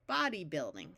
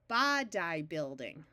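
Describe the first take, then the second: First: Body has a short O and a long E. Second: Body has a short O and a long I. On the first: "switching this Y from a long I sound to a long E" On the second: "switch from the long O to the short O"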